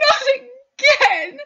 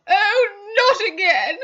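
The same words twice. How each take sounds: First: Much higher, louder, slow howl on Not again; a second, louder sob-shout; sobbing shout. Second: High, loud wail of not again with a crying break; a first sob before the louder cry; sobbing. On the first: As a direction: cry it out as the despair peaks. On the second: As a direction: let the tears come into the words. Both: Acted. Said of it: "Missus Carter began to sob".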